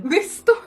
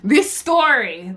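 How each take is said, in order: First: Higher, rising "story" in shock; disbelief. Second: Said in the usual way. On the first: Real, not acted. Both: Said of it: "I can't, like".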